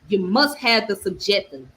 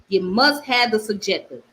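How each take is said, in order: Both takes have the same delivery.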